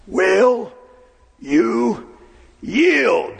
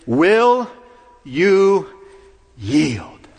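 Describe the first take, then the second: First: Drawn-out, stern demand from the saddle; commanding voice. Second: Firm, loud demand to surrender; a commanding call at the gate; Jesus' question. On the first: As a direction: command the governor to give up. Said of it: "very commanding voice". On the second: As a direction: ask for surrender with authority. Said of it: "And his question is". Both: Retold or imitated.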